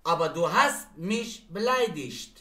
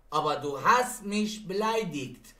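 First: Slow sentence, beleidigt ending in -isht; final -ig as ish. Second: Slow sentence, beleidigt ending in -ikt; final -ig as hard k. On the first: (جمله شمرده، beleidigt با «شت» در آخر) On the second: (جمله شمرده، beleidigt با «کت» در آخر) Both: Shown as a demonstration.

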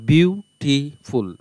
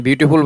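First: বিউটিফুল very slow, as বিউ, টি, ফুল; split into syllables. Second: Said in the usual way. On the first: Shown as a demonstration. Teacher demonstrating three syllables to students, বিউটিফুল slowly split up. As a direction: break বিউটিফুল into three separate beats. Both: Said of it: "বিউ উচ্চারণ করার পর টি".

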